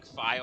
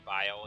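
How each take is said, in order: First: The word begins with an F sound. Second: The word begins with a V sound. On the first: The speaker calls it wrong. "I keep saying File" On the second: The speaker calls it right. "I mean to say Vile"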